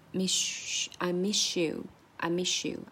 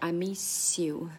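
First: The s blends into a sh sound before you. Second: The s stays a clear s before you. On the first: The speaker calls it right. "就是I miss you" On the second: The speaker calls it wrong. "而不是I miss you"

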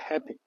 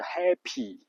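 First: The final vowel is a short, lax sound. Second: The final vowel is a long ee sound. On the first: "英式发音就是happy，最后那个y 是发a 的音" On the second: "几乎100% 的美国人说的都是happy，是个e 的音，长音"

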